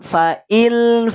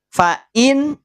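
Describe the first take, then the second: First: The n sound is merged into an l. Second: The n sound is pronounced clearly. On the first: "Sudah lebur ke huruf lam" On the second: "Fa'in dibaca jelas"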